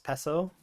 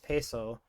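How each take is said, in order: First: It is said the Filipino way. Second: It is said with a Midwestern American accent. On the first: The speaker calls it right. "it's supposed to be" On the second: The speaker calls it wrong. "the like Midwestern accent just takes over so hard"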